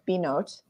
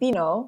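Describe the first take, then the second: First: The final T sound is clearly pronounced. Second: The final T sound is left silent. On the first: This is the intended pronunciation of the name. The speaker calls it right. "you are supposed to pronounce a T like Binot" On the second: It treats the name as if it were French. The speaker calls it wrong. "I always want to say Bino and not pronounce the T"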